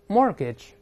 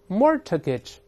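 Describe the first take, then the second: First: The t in the middle is silent. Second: The t in the middle is pronounced. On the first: The speaker calls it right. "中间这个字母t 是不发音的" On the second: The speaker calls it wrong. "注意不要读成mortgage"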